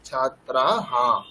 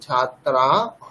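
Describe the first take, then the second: First: The word ends in h followed by a. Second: The word ends in a bare h sound. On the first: The speaker calls it right. "যেখানে আকার আছে সেখানে হ আকার উচ্চারণ করতে হবে বিসর্গে" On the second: The speaker calls it wrong. "ছাত্রা হ নয়"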